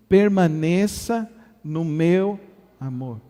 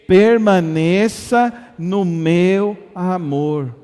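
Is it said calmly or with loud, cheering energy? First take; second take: calmly; cheering energy. First: It is said calmly, at normal loudness. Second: It is shouted loudly, like a cheering crowd.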